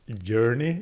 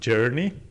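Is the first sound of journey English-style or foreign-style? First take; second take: foreign-style; English-style. First: The first sound is a non-English J sound. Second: The first sound is the English J sound. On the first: The speaker calls it wrong. "saying, J for journey, like journey" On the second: The speaker calls it right. "instead of journey"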